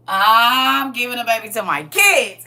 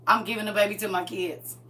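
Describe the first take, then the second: First: Slow, louder, laughing through it; drawn-out laughing declaration; emphatic repeat. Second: Said in the usual way. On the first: Pretend. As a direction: lean on every word as the punchline.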